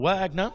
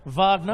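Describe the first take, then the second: First: The name is pronounced the English way. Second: The name is pronounced the German way.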